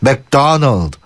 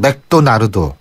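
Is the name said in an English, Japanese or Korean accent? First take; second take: English; Japanese. First: It is said with English-like pronunciation. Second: It is said with Japanese pronunciation. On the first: This is how people who lived abroad say it. "외국에서 좀 사셨다, 사셨던 분들은" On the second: This is how it is said in Japan. "일본은"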